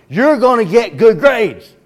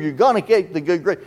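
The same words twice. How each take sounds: First: Mock parent, much higher and louder, slow and hammering; insistent parent. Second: Said in the usual way. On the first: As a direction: drill it in like a parent losing patience. Parent insists, stronger repeat.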